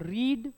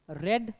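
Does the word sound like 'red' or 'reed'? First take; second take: reed; red. First: The vowel is long, like in 'reed'. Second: The vowel is short, like in 'red'. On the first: The action happens in the present. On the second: The action is past or completed.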